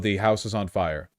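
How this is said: It is said casually and calmly.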